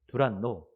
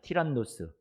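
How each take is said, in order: First: The name begins with a 'd' sound, ending '-no'. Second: The name begins with a 't' sound, ending '-nos'. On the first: This is the local adapted form of the name. "우리 발음으로 그렇게 표현하고 있습니다" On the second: This is the original form of the name. "진짜 이름은 이제 발음은 티란노스"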